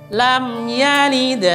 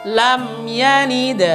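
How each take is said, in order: Both takes have the same delivery.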